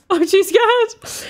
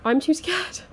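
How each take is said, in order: First: Much higher, louder and slow, "I'm too scared" wailed out; terrified wail. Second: Pitched-up nervous plea "I'm too scared". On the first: Player dreading the next room, drawn-out terrified wail. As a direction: stretch "scared" into a frightened moan. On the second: Player dreading the next room, anxious whine. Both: Real, not acted. Frightened player repeats phrase.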